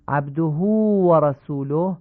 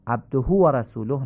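First: «عبده» said abduhū with a long hu, slow; proper ishba; lengthened hu. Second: «عبده» said abdo, short and quick; the mistake to avoid; clipped hu. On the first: Teacher reviews the correct form. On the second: Teacher contrasts the wrong clipped form. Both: Shown as a demonstration. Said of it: "نشه".

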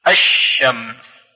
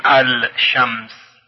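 First: الشمس said slowly as ash-shams, lam dropped and sh doubled; الشمس recited as ash-shams with doubled sh; correct sun-letter reading. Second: الشمس with the lam said clearly, al-shams; الشمس read as al-shams, lam not assimilated; wrong way, lam sounded. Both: Shown as a demonstration. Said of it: "یعنی نمیگوییم الشمس".

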